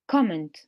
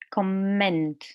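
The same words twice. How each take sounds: First: The stress is on the first syllable. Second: The stress is on the second syllable. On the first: It is used as a noun. "In the noun, the stress is on the first syllable" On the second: It is used as a verb. "In the verb, the stress is on the second part here"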